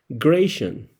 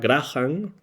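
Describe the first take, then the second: First: The middle consonant is an 'sh' sound. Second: The name is said in a Scottish manner. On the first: "La C H se pronuncia como S H" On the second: "a la manera más eh, escocesa"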